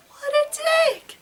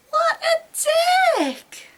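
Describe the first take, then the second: First: Much higher, slow, drawn-out scandalized wail; outraged wail. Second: Much higher, very slow, tearful shouted wail; outraged shout. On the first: Heroine wailing at the rude boyfriend, drawn-out scandalized wail. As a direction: stretch it out, scandalized. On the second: Heroine shouting through tears at the boyfriend, slow tearful scream. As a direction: scream it out, near tears with rage. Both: Acted.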